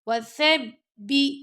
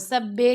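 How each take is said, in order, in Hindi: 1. आख़िरी अक्षर 'ee' स्वर पर ख़त्म होता है। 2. आख़िरी अक्षर 'e' स्वर पर ख़त्म होता है। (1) "बी पढ़ना" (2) "वसब्बे नहीं पढ़ना"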